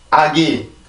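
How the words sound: It is said flat, with even syllables. "한국어를 먼저 읽어볼게요"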